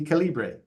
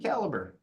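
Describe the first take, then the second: First: The name is said the Latin American way. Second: The name is said the North American way. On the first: This is how it is said at the Central American project. "if we're down in Nicaragua, it'll be Calibre" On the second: This is how it is said at the North American project. "If I'm in uh, the project in Newfoundland, uh, it'll be Caliber"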